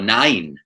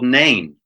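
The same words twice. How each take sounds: First: The name is pronounced the Welsh way. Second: The name is pronounced the usual English way.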